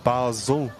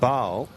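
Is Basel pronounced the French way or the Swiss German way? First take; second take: Swiss German; French. First: The name is pronounced the Swiss German way. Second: The name is pronounced the French way. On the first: "The German-speaking Swiss call it Basel" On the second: "The French pronounce it Basel"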